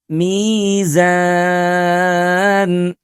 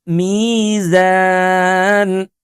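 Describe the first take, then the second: The two takes are said the same way.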